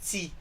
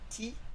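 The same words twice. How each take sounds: First: The t has a short s-like hiss after it. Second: The t is plain, with no hiss after it. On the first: The speaker calls it right. "it's T. There's just a little bit of an S added to it" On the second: The speaker calls it wrong. "it's not T"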